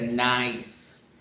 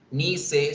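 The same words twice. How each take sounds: First: "nice" as one syllable, NYSE; English pronunciation. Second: "Nice" read Spanish-style, NI-SE; two syllables in "Nice", final e sounded; read as written. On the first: Teacher showing pronunciation, one-syllable "nice". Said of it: "se pronuncia". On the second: Teacher showing spelling, "Nice" as ni-se. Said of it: "se pronuncia nice". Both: Shown as a demonstration.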